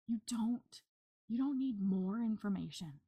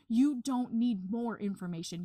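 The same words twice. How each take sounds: First: The sentence is said at normal volume. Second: The sentence is said at louder volume.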